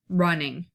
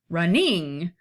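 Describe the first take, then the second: First: The stress is on the first syllable. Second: The stress is on the second syllable. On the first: The speaker calls it right. "run, the r is the stressed and the ning is the unstressed" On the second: The speaker calls it wrong. "if we did it the other way"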